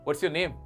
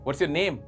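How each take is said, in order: Both takes have the same delivery.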